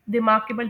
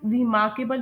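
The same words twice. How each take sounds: First: रिमार्केबल with a short, light first syllable; reduced "ri", weight on "MAR" in रिमार्केबल; corrected pronunciation. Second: रिमार्केबल with a full "ree" at the start; common mispronunciation. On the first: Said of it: "रिमार्केबल pronounce करते हैं". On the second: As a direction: imitate the wrong "ree-MAR-kebal" for रिमार्केबल. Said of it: "इसे कुछ लोग रिमार्केबल pronounce कर रहे होते हैं". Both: Shown as a demonstration.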